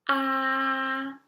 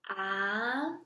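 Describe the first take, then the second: First: The pitch stays high and level. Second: The pitch rises from low to high. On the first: "For the first tone, it is the highest one" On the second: "The second tone is a rising tone"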